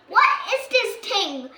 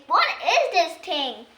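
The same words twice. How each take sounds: First: Puzzled higher, louder question; confused high question. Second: A touch of a puzzled fairy, slow; lightly voiced confused woman; voicing Nanny Plum. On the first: Acted. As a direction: sound baffled by it. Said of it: "asks Nanny Plum, a little confused". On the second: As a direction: ask it slowly, bemused. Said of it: "Nanny Plum says".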